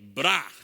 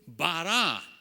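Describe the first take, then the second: First: The word is said as one syllable. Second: The word is said as two syllables. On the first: "in Aramaic is B R A" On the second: "In Hebrew"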